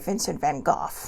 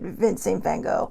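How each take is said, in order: First: The name has a British pronunciation. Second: The name has the speaker's usual American pronunciation.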